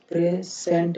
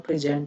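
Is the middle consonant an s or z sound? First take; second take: s; z. First: The middle consonant is an s sound. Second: The middle consonant is a z sound. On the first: The speaker calls it wrong. "प्रेजेंट नहीं होगा" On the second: The speaker calls it right. "प्रेजेंट होता है"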